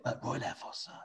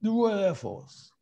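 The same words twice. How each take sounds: First: Hushed mimicked whisper; whispered prompt. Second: High, drawn-out impersonation; slow mock pronouncement in a commander's put-on voice; Prince Philip. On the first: Aide prompting the commander in his ear, whispering. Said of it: "somebody had to whisper in his ear". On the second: Commander repeating what was whispered to him, slow impersonation. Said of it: "he, he went".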